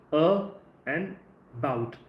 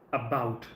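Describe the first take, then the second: First: "A" light, then "bout" said separately with the weight; syllables pulled apart, "bout" stressed; stress on second part. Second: "about" with the weight on "bout"; second syllable of "about" stressed. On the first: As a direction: split "A" and "bout" apart, land on "bout". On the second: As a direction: say "about" whole, landing on "bout". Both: Shown as a demonstration. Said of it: "put the stress on the second part".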